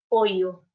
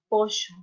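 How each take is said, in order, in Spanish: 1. La consonante del medio suena como una y. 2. La consonante del medio suena como la sh del inglés. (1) "en el Perú se pronuncia pollo con i" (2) "en Uruguay se pronuncia pollo. Es un préstamo del sonido del inglés"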